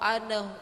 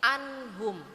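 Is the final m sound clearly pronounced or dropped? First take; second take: dropped; clear. First: The final m sound is dropped. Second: The final m sound is clearly pronounced. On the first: The speaker calls it wrong. "bukan begitu" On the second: The speaker calls it right. "harus dibaca jel, jelas ya"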